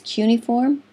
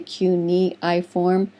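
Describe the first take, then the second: First: The word is said in its usual spoken form. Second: Every syllable is sounded out as it is spelled. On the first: It is the accepted pronunciation. The speaker calls it right. "but it's cuneiform" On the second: It helps with remembering the spelling. The speaker calls it wrong. "I always say cuneiform so I can spell it correctly"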